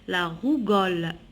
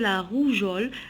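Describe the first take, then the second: First: The g is a hard g sound. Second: The g is a soft j sound. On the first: The speaker calls it wrong. "Si j'enlève le E, on dit quoi? ... Et c'est faux" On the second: The speaker calls it right. "On dit la rougeole"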